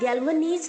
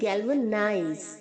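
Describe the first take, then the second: First: The last syllable is pronounced 'neez'. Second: The last syllable is pronounced 'nize'. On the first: The speaker calls it wrong. "इसे आप गैल्वनीज नहीं बोलेंगे" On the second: The speaker calls it right. "नाइज होगा, नीज नहीं होगा"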